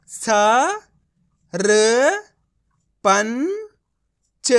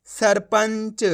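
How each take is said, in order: First: Teacher sounding out each letter slowly. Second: Said in the usual way. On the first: Shown as a demonstration. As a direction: spell out स, र, पं, च one at a time with pauses. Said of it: "अब आपको मेरा तरीका देखना है". (हर अक्षर अलग-अलग धीरे बोलना) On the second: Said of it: "तो मिलके बन जाएगा".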